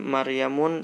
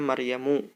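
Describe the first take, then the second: First: The word ends with an added n sound. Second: The word ends on a plain u vowel. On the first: The speaker calls it wrong. "ini macam Maryamun" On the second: The speaker calls it right. "seharusnya Maryamu"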